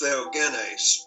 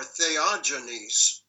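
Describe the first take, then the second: First: It is pronounced the original Greek way. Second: It is pronounced the usual English way. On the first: "my guess is that the Greek is Theogenes" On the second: "I think is how it's normally said in English"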